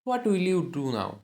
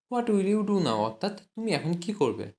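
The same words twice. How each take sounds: First: Slow, word by word; slow dictation. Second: Said in the usual way. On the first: Shown as a demonstration. English teacher dictating to Bengali students, slow and deliberate. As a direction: spell it out slowly for learners. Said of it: "teacher models the English slowly". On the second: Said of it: "teacher repeats at normal pace".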